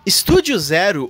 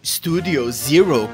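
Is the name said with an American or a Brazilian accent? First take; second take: Brazilian; American. First: It is said with a Brazilian Portuguese accent. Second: It is said with an American English accent.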